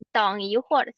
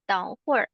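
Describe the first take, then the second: First: The middle syllable 'yi' is pronounced. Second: The middle syllable 'yi' is dropped. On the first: This is the fuller form suited to writing. "penulisan sebaiknya pakai 等一会儿" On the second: This is how people usually say it in speech. "orang China juga mereka i-nya nggak dibaca"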